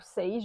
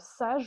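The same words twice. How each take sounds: First: The word is pronounced the English way. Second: The word is pronounced the French way. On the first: "à l'anglaise" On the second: "à la française"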